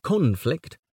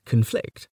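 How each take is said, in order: First: "conflict" stressed on CON, as a noun; CON-flict, front-stressed "conflict"; stress on first syllable. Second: "conflict" stressed on FLICT, as a verb; weak first syllable, strong second in "conflict"; con-FLICT, end-stressed "conflict". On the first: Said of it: "the noun is". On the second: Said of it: "but the verb is". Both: Shown as a demonstration.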